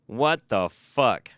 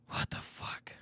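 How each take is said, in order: First: Very slow, stretched what the fuck; drawn-out disbelief. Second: Whispered, breathless what the fuck; stunned whisper. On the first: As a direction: drag "What the fuck?" out slowly in shock. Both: Real, not acted. Disbelief, then whispered repeat.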